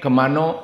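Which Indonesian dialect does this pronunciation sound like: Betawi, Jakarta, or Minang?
Minang. It ends in an 'o' vowel, Minang-style.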